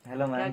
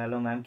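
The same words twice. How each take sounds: First: The greeting is said in a sweet, affectionate tone. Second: The greeting is said in a plain, casual tone. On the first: This is how it was really said, with affection. "प्यार से बोलते थे ना" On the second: This is not how it was really said. "मतलब ऐसे tone में नहीं बोला था, मतलब अभी बोल रहा हूँ।"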